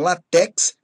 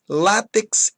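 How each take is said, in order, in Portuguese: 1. O acento está na última sílaba. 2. O acento está na primeira sílaba. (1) "e não latex" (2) "látex e não latex"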